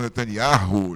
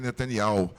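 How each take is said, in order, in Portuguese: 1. O som de H no nome é pronunciado. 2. O som de H no nome é mudo. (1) "as pessoas falam Netanyahu" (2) "O nome dele é Netanyahu. Esse H não deve se pronunciar"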